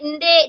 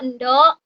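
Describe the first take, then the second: First: The word ends in an e sound. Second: The word ends in an o sound. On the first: This is the Ranai dialect form. "di Ranai ende" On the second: This is the Sedanau dialect form. "kalau di Sedanau endo"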